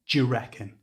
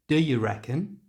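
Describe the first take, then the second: First: 'Do you' blends into a j sound. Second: 'Do you' is reduced to weak uh sounds. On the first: "Or we can simply use the j sound" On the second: "You can either use schwa sounds, which is the little uh sound"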